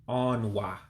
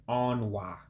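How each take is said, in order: The two takes are said the same way.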